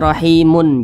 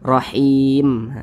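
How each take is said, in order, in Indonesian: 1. Kata ini berakhir dengan tambahan -un. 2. Kata ini berakhir pada huruf mim mati. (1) "Jangan dibaca rahimun, jangan" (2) "kita berhenti atau berwakaf tepat di huruf mim kita baca rahim"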